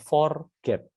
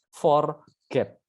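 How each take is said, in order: First: It is said as one word without a break. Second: A short pause separates "for" and "get". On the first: To fail to remember or miss something. "tulis sebagai forget" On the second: To obtain or achieve something one wants. "spasi atau jeda di tengah huruf ini"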